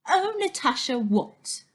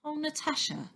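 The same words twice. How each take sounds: First: Mocking echo. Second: Gentle plea. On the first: Girl mocks Stan's words. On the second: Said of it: "says Stan". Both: A narrator's reading.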